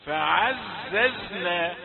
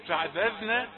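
First: فعززنا said very slowly, hissing z; correct reading. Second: فعززنا with the z blurred toward dhal; wrong dental sound. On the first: Teacher modelling before showing the error. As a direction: draw out فعززنا with a clear z. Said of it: "لثوية قلت فعززنا". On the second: Teacher imitating the mistaken reading. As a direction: say فعززنا with a tongue-tip dh. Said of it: "هذا خطأ". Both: Shown as a demonstration.

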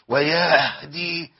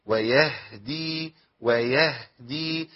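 First: ويهدي with the ه pushed out on the whole breath, very slow; overdone breathy h. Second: ويهدي with a short, gentle ه, slow; measured h. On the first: Teacher warning students against straining the h. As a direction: blow all your air out on the ه in ويهدي. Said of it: "بتطلع النفس كله". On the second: Teacher showing students the balanced h. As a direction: let the ه in ويهدي out with just a little breath. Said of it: "لازم تطلع الهاء بحكمة كده". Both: Shown as a demonstration.

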